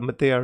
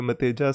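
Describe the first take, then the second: First: "Matea", ending in open vowels: ma-TAY-a; corrected pronunciation. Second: "Mateja", the j sounded out as written; mistaken pronunciation. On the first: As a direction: say "Matea" with no j sound, gliding straight from e to a. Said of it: "I was pronouncing your name wrongly". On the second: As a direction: say "Mateja" with a j consonant before the final a. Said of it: "I was calling you Mateja". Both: Shown as a demonstration.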